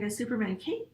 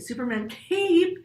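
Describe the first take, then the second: First: Cape gets a little extra emphasis, not shouted. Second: Cape is shouted loudly.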